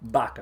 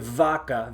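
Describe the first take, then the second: First: The word starts with a B sound. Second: The word starts with a buzzing V sound. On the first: The speaker calls it right. "It's vaca" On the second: The speaker calls it wrong. "Don't say vaca"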